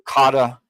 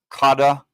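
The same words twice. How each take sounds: Both takes have the same delivery.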